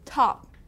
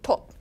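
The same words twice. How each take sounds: First: The word is fully released, not cut off. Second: The word is cut off short. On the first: The speaker calls it right. "just say top" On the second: The speaker calls it wrong. "They would cut it off, it would sound different"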